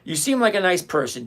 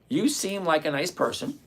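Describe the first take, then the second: First: It is read at normal speed. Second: It is read slowly and deliberately.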